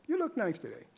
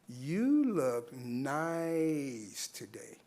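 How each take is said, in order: First: It is said in a plain, friendly tone. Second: It is said in a loaded, suggestive tone. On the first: It is an innocent compliment. "it's no problem. That's not sexual harassment" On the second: It may be a form of harassment. "very same words, but there's a different inflection"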